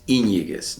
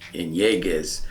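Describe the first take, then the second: First: The stress is on the first syllable. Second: The stress is on a later syllable. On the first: The speaker calls it right. "I would always place the accent on the Y" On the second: The speaker calls it wrong.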